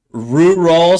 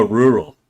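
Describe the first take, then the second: First: "Rural" sounded out louder and higher, rising at the end; laboured RURAL. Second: Said in the usual way. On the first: Shown as a demonstration. Streamer reading "so hard to pronounce", laboured "Rural". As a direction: push out both syllables of "Rural" with a lift. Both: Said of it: "so hard to pronounce for me".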